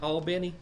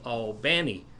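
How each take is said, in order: First: Albany is said in a non-Georgia way. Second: Albany is said the Georgia way. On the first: The speaker calls it wrong. "Ain't that Albany?" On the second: The speaker calls it right. "is the way they pronounce it in Georgia"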